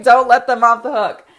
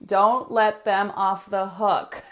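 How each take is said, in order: First: "Don't let them off the hook" said louder, "Don't" punched; louder repeat. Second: "don't let them off the hook" drawn out slowly, every word weighed; slow and deliberate. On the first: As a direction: hammer the rule home, louder. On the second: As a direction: spell the rule out slowly so they can write it down. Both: Shown as a demonstration. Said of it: "and write this down".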